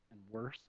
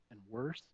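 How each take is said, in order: Both takes have the same delivery.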